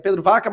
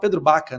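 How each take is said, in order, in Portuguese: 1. O sobrenome começa com som de V. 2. O sobrenome começa com som de B. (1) "é Pedro Vaca" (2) "mas se fala Pedro Baca"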